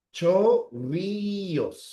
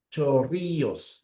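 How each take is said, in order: First: Chorrillos drawn out with a rolled rr; slow dictation. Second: Chorrillos slowly with a rolled rr; drawn out Chorrillos; slow dictation. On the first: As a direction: stretch Chorrillos slowly. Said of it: "la C así". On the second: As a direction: repeat Chorrillos. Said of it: "Esta es la doble L". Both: Shown as a demonstration.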